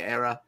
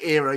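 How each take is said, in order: First: It sounds like error. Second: It sounds like ear-uh. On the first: "you say error" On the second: "we say era"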